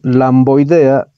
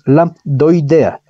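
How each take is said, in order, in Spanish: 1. La palabra se pronuncia sin sonido d. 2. La palabra se pronuncia con sonido d. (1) "no es lamboidea" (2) "Es lambdoidea. Lambda, viene de lambda"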